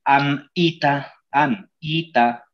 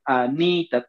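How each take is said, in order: First: Slow "Anita" broken as AN, ITA; wrong split. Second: "Anita" as a-NI-ta, run together; as pronounced. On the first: Teacher asks "¿acaso le dices?", "Anita" wrongly split an-ita. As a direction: chop "Anita" after the N, with a clear gap. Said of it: "¿acaso le dices". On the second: Teacher says "tal como se pronuncia", "Anita" joined a-ni-ta. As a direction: join the N to the I in "Anita". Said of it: "tal como se pronuncia". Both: Shown as a demonstration.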